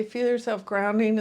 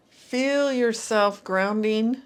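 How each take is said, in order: First: Said in the usual way. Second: Guided grounding cue. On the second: Shown as a demonstration. Guiding the listener into their body, slow and calm. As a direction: draw the words out slowly, rising at the end. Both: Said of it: "And when I say feel yourself grounding".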